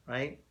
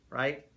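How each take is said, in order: Both takes have the same delivery.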